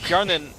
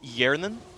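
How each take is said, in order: First: The name begins with an audible H sound. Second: The name begins with a Y sound, no H. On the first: The speaker calls it wrong. "Hjarnan is how we call the A D carry" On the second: The speaker calls it right. "so no H at all, uh, completely silent H"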